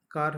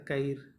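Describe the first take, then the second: First: Said in the usual way. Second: "कईर" with an i glide before the r; Nagpuri epenthesis. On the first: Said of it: "है तो कईर". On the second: Shown as a demonstration. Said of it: "अपनी ही ती". ("कईर" में र से पहले इ जोड़ें)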